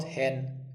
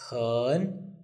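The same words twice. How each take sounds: First: "hen" as in the English bird; English-style "hen", short vowel; wrong pronunciation. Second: "hen" with an uh-like vowel, dipping then rising; Mandarin third tone. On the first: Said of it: "it's not hen, it's hen". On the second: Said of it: "it's a third tone". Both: Shown as a demonstration.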